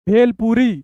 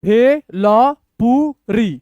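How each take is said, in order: First: Said in the usual way. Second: bhelpuri very slow, in separate syllables. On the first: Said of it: "ऐसे पढ़ेंगे". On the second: Shown as a demonstration. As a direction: draw out each syllable with gaps. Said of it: "तोड़ तोड़ के पढ़िए".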